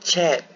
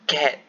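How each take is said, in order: First: The word begins with a ch sound. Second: The word begins with a k sound. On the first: The speaker calls it wrong. "bukan C A T, chat. Bukan" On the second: The speaker calls it right. "Tapi kalau dalam bahasa Inggeris, C bunyi dia K"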